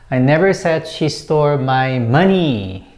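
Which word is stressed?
money. The word "money" carries the main stress. Something other than money was taken. "I didn't say that it was money"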